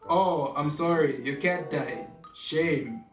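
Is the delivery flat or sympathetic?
flat. It is said in a flat, lifeless tone. The bad news sounds harsh. The speaker calls it wrong. "It is so dead and so lifeless"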